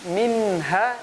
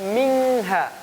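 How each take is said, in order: First: The nasal is pronounced as a clear n. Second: The nasal is pronounced as an ng sound. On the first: The speaker calls it right. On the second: The speaker calls it wrong.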